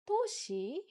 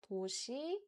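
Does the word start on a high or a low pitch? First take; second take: high; low. First: The word starts on a high pitch. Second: The word starts on a low pitch. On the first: The speaker calls it wrong. "Don't start with a high-pitched sound" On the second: The speaker calls it right. "Try to start with a lower pitched sound"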